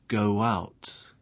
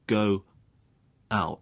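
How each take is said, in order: First: A w sound joins the two words smoothly. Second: The two words are said separately without linking. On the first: The speaker calls it right. "It's go out, go out. This is called a linking w" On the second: The speaker calls it wrong. "So it's not go out. There's no linking there"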